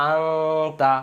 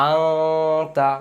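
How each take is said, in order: The two takes are said the same way.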